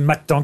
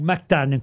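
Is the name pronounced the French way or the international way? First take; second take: French; international. First: The name has its French pronunciation. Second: The name has its international pronunciation. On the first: "en France, on dit Mactan" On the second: "comme on dit à l'international"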